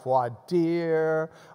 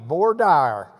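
First: It is pronounced the French way. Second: It is pronounced as English spelling suggests. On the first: This is how it is said in other places. "pronounce it like the French phrase it is" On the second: This is how it is said locally. "It's the way it's spelled"

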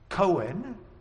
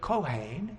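First: The word is said with an English pronunciation. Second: The word is said with a Hebrew pronunciation. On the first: This is how the family name is said. "Cohen is the way we say it in English" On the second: This is the word for priest. "Kohen in Hebrew is the word for priest"

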